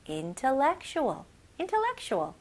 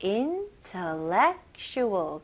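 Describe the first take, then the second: First: Intellectual said quicker in one sweep; faster. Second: Intellectual said slowly in an even beat; rhythmic. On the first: Teacher speeding up intellectual for practice. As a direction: rattle off intellectual fast. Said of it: "좀 더 빨리". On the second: Teacher keeping the beat on intellectual for students. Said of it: "리듬을 잘 잡아가지고". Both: Shown as a demonstration.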